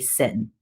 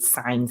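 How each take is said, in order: First: The word is said to sound like 'sin'. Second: The word is said to sound like 'sign'. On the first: The speaker calls it wrong. "a lot of people say sin. It's not really sin" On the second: The speaker calls it right. "So you pronounce it sine still"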